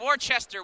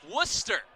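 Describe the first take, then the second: First: The name is said with three full syllables. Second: The name is shortened to two syllables. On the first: Outsiders say it this way. The speaker calls it wrong. "everyone's like" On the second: Locals say it this way. The speaker calls it right.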